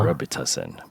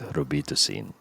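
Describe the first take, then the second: First: It is said with an American accent. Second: It is said with a Filipino accent. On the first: The speaker calls it wrong. "that's the American way" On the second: The speaker calls it right. "but in the Philippines it's"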